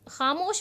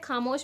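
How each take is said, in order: First: The first sound is a throaty fricative. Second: The first sound is an aspirated stop. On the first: The speaker calls it right. "खामोश word होता है" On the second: The speaker calls it wrong. "खामोश word नहीं होता है"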